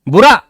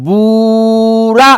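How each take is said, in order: First: The word is said short, not lengthened. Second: The word is drawn out and lengthened. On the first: "यानी नहीं खिंचा, unstressed" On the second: "तो ये खिंचा"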